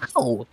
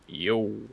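First: It is said loudly with high energy. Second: It is said flatly with low energy.

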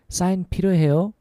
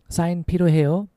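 The two takes are said the same way.

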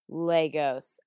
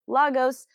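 First: The word sounds like 'Legos' with an A. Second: The word does not sound like 'Legos'. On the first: This is the proper pronunciation. The speaker calls it right. "it is indeed Lagos. Okay, like more than one Lego, but with an A" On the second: This is how someone in a film says it. The speaker calls it wrong. "the fake news lady in the movie says Lagos"

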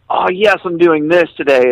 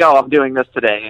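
First: It sounds eager and excited. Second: It sounds reluctant and grumpy.

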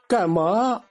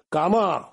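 First: It is said in Standard Mandarin. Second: It is said in Tianjin dialect, lower pitch.

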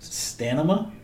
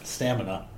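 First: The n sound comes before the m sound. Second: The m sound comes before the n sound. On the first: The speaker calls it wrong. "I purposely say it wrong all the time now" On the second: The speaker calls it right.

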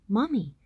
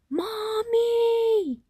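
First: It is said a little louder. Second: It is yelled as loud as possible.

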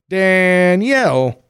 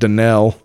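First: The name is said in its usual standard form. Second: The name is said in a regional, shortened form. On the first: The speaker calls it right. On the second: The speaker calls it wrong.

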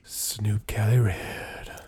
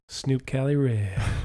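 First: The name is said in a breathy, airy voice. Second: The name is said in a plain voice. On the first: "But you got to say it like this. ... Almost like smoke blown out of your mouth" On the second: "It's called Snoop Cali Red"

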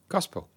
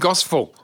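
First: The middle consonant sounds like a P. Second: The middle consonant sounds like an F. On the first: The speaker calls it right. "How do you say it?" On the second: The speaker calls it wrong. "You're saying gospel"

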